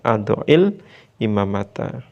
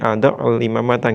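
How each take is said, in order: First: The words are joined with an 'i' sound. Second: The words are joined with a 'u' sound. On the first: The speaker calls it right. "yang semula sukun berubah menjadi kasro" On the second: The speaker calls it wrong. "nggak bisa"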